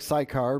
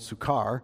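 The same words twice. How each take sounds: First: The name is said as English spelling suggests. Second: The name is said with a Greek pronunciation. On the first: "it looks like Sychar" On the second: "the Greek pronunciation would be more Sychar"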